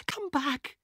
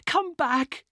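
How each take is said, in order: First: Broken plea. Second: High, loud anguished plea; anguished cry. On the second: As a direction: cry out to bring him back. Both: Acted. Elena pleads to dead brother.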